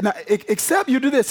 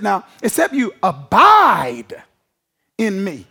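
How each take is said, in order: First: Said in the usual way. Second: Slow, drawn-out "abide" with a falling close; stress on abide. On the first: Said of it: "He didn't just say attach". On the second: Shown as a demonstration. Preacher stressing "abide" to the congregation. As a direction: lean slowly into "abide" and let it fall. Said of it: "He said abide".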